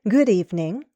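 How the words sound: The pitch falls and then rises. "Or possibly a fall rise pattern"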